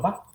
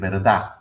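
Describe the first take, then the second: First: The word is cut to one short syllable. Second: The word is said in full with final d. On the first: "al rato voy a estar diciendo, diciendo va" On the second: "si yo empiezo a decir verdad"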